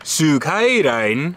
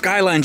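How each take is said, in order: First: It is said with a Japanese pronunciation. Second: It is said with a plain English pronunciation.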